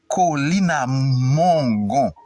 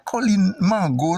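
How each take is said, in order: First: The name ends in 'à Mongon' with an 'o' vowel. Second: The name ends in 'Mango' with no linking 'à'. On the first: The speaker calls it right. "c'est Colline à Mongon" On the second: The speaker calls it wrong. "il y a des gens qui disent Colline Mango, on ça fait faute net"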